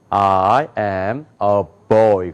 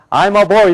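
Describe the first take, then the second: First: Put-on I am a boy slow, low, each word separate; English pronunciation. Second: Put-on I'm a boy quickly in Korean syllables; Koreanized pronunciation. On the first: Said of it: "그런단 말이에요". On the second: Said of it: "이렇게 안 읽고". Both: Shown as a demonstration.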